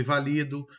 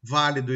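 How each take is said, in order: First: "valido" stressed on LI; "valido" with the beat in the middle; penultimate stress. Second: "Válido" stressed on VÁ; "Válido" with the beat up front; antepenultimate stress. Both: Shown as a demonstration. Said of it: "Com a palavra acentuada ou não".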